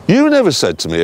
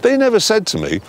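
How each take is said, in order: First: Corrective emphasis on the word "you"; stress on YOU. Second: Said in the usual way. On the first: Real, not acted. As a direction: punch "you", let the rest drop.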